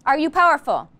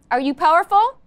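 First: Said in the usual way. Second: A louder, eager call to the class; rising rally question. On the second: Real, not acted. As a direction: pump them up, lift at the end.

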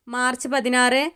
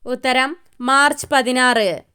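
First: March പതിനാറ് read with a light rise; soft listing rise on പതിനാറ്. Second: March stressed, പതിനാറ് in a firm falling close; answer reveal. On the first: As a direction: offer it as one choice among four. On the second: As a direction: announce it as the final answer. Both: Shown as a demonstration.

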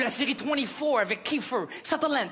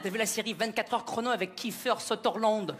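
First: Twenty-four and Kiefer Sutherland said the native English way; North American pronunciation. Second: Mock French accent on Kiefer Sutherland; French-accented English. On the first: Shown as a demonstration. Quebecer names the series as at home, North American pronunciation. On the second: Quebecer mimics Rachid naming the series, mock French accent. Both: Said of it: "vous n'avez pas le même accent que nous en Amérique".

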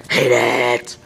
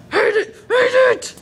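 First: Suddenly deep mock-angry voice; deep, emphatic fake disgust; low mock growl. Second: High, squealed mock whine; squeaky, slowed-down fake tantrum. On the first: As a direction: drop it way down low. Same words dropped low after squeal. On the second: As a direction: stretch it out high and loud. Mock tantrum over own accent.

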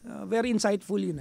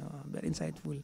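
First: Said in the usual way. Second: Softer, lower echo of the phrase very insightful; quiet repeat. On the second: Shown as a demonstration. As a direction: say very insightful again, dropping to a murmur. Repeated phrase, second take softer. (mahinang ulit)

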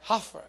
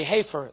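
First: "Heifer" said as HAH-fer, soft and low; second try at the word. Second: "heifer" said as HAY-fer, tentative; unsure pronunciation. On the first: Pastor trying the word again for the congregation, soft and low. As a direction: say "Heifer" with the first syllable like "hah", quietly. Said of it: "Do you say like that?". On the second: Pastor unsure of the word, trying it on the congregation, tentatively. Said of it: "I don't know how to say this word". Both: Shown as a demonstration.

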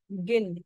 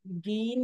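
First: गिन with a short, quick i; clipped short vowel in गिन. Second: गीन with a long, drawn-out ee; wrong take गीन, held long ee. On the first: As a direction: say गिन with a brief vowel, not गीन. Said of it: "गीन नहीं है, गिन है". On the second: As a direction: stretch the vowel in गीन. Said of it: "गीन नहीं है". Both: Shown as a demonstration.

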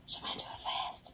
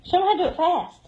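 First: Whispered, voiceless, very soft. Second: Said in the usual way. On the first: Real, not acted. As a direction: drop to a hushed whisper. Same line, then whispered.

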